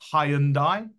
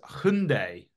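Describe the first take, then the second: First: It is said the common British way. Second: It is said the brand's own way. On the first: The speaker calls it wrong. "in the UK, we'd often pronounce their name Hyundai" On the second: The speaker calls it right. "But actually, it's Hyundai, right? That's how they pronounce it"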